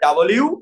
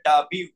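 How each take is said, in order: First: An 'l' sound is heard before the final 'yoo'. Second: No 'l' sound is heard before the final 'yoo'. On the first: This is the British way to say it. "British pronunciation বলে" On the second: This is the American way to say it. "আমেরিকানরা বলে"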